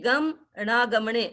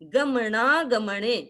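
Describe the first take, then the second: First: The syllables are split apart with a break. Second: The syllables flow together without a break. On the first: The speaker calls it wrong. "अब अलग तो नहीं करेंगे, ऐसे नहीं गम ना गमने ऐसे नहीं बोलेंगे" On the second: The speaker calls it right. "But हमको थोड़ा सा ये ध्यान देना है"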